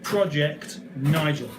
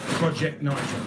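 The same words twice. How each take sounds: First: The T sound is clearly pronounced. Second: The T sound is left out. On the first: The speaker calls it right. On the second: The speaker calls it wrong.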